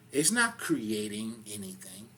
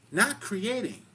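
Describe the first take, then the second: First: Said in the usual way. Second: "not" hit higher and louder, then "creating" falls; stress on not. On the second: Real, not acted. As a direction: punch "not" before "creating". Contrasts creating with recreating.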